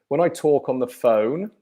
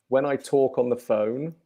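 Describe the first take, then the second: Both takes have the same delivery.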